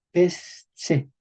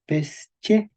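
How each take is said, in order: First: "pesche" said as pes, tse; s-t-s cluster. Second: "pesche" split as pes, che; palatalized che. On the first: Teacher shows depalatalized step, "pesche" slowly as pes-tse. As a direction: pause after pes, then ts for the ch of "pesche". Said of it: "porque aquí tenemos S T S". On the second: Teacher shows palatalization step, "pesche" slowly with ch. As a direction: pause after pes, then ch in "pesche". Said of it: "Y ahora con P ocho nos daría". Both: Shown as a demonstration.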